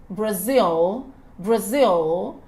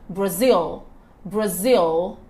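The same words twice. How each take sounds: The two takes are said the same way.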